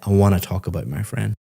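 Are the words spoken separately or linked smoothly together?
linked smoothly. The words run smoothly together as connected speech.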